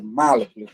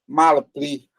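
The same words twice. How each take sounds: First: The stress is on the first syllable. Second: The stress is on the second syllable. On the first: The speaker calls it right. "A penúltima é esta. É aqui que está a tonicidade" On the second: The speaker calls it wrong. "que muitos pronunciam malpli"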